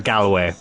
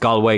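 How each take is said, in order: First: Galway is said the way outsiders say it. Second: Galway is said the local Irish way.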